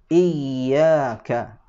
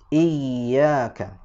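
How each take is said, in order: No difference in how they are said.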